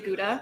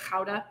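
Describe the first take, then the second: First: It is said in an American Michigan accent. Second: It is said Dutch-style with a harsh throaty start.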